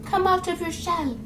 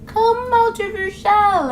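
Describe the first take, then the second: First: Soft, high mock coaxing; coaxing outsider. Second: High, slow, drawn-out mock coaxing; coaxing outsider. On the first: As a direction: imitate a gentle, hushed lure to someone shy. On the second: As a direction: stretch out the imitated lure, at full voice. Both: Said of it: "they tend to be like".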